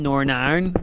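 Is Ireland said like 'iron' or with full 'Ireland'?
iron. Ireland is reduced to sound like iron. This is how people say it locally. "because that's how people pronounce it here"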